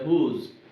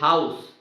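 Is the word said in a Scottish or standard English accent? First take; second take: Scottish; standard English. First: The vowel is a long 'oo' sound. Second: The vowel is an 'ow' diphthong. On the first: "Scottish would say" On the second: "in English, normal English"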